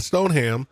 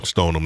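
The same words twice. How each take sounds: First: Stoneham with the h sounded, stone-ham; spelled-out way. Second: Stoneham with a dropped h, stoh-num; Boston way. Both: Shown as a demonstration. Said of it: "not Stoneham".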